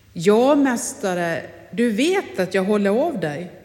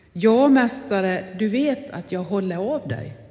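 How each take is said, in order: The two takes are said the same way.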